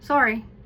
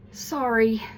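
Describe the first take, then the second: First: It is said flatly, without feeling. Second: It is said warmly, with genuine feeling. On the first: The speaker does not really mean the apology. The speaker calls it wrong. "the meaning and the feeling isn't there. ... It doesn't sound sincere" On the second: The speaker genuinely means the apology. The speaker calls it right. "I would want to say it more like this"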